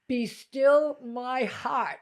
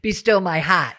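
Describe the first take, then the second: First: It is said in her usual accent. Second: It is said in a Rhode Island accent.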